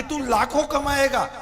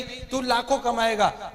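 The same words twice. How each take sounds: First: A hint of an eager recruiter, laughing; lightly mock his upline's hype through a laugh; imitating upline pitch. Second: Slow, drawn-out recruiter promise; slow upline promise. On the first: Mimicking the friend's upline promising him lakhs, with a laugh. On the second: Retold or imitated. Friend slowly repeating the upline's promise of lakhs. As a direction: stretch लाखों out like a salesman. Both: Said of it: "upline करती है कि नहीं?".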